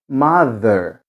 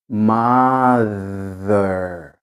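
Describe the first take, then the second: First: The word is said at normal speed. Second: The word is said very slowly. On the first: "Então fica assim, ó" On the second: "Vou fazer bem lentinho para vocês perceberem"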